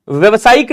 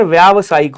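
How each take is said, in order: First: व्यवसायिक with short first vowel, vyav-; wrong form. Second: व्यावसायिक with long first vowel, vyaav-; correct form. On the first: Teacher showing students the wrong word, short-vowel mispronunciation. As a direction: say व्यवसायिक with a short "vya" at the start. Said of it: "व्यवसायिक नहीं होता, क्या होता है?". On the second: Teacher correcting students' word, long-vowel pronunciation. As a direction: stretch the "vyaa" opening of व्यावसायिक. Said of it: "sir, व्यावसायिक होता है". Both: Shown as a demonstration.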